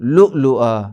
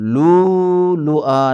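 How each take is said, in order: First: Short vowels are broken by glottal stops. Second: The vowels are long with no glottal stops. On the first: The speaker calls it right. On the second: The speaker calls it wrong.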